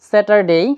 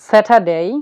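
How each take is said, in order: First: The r sound in the middle is pronounced. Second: The r sound in the middle is silent. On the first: The speaker calls it wrong. "আগে আমরা এরকম ভাবে উচ্চারণ করতাম" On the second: The speaker calls it right. "আমরা আর এর উচ্চারণ করছি না"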